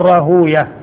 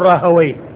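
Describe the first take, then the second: First: The ending sounds like 'huya' with a long oo. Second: The ending sounds like 'hawayh' with an open vowel. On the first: This is the form used by hadith scholars. "والمحدثين يقول راهوية" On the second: This is the form used by language scholars. "اللغويين يقول راهوي"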